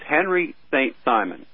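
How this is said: The name is said with an English pronunciation. "now I'm speaking phonetically"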